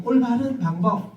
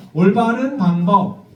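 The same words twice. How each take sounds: First: Said in the usual way. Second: "올바른 방법" said slowly; slow model phrase. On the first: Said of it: "다시 한 번요". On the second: Shown as a demonstration. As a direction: lay out "올바른 방법" slowly for them to copy. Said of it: "그래서 이렇게 말하는 거예요".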